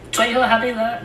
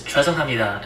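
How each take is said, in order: First: The word is said with a garbled, non-native pronunciation. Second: The word is said with a standard Korean pronunciation. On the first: The speaker calls it wrong. "it's not even how you pronounce it" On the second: The speaker calls it right. "It's 죄송합니다"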